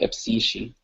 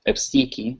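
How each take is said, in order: First: The consonant is pronounced as an sh sound. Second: The consonant is pronounced as a k sound. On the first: This is how people pronounce it nowadays. "pronounce it more as like epsishi" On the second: This is how it was pronounced a century ago. "it was pronounced like epsiki because in Coptic it was almost exclusively pronounced as a K"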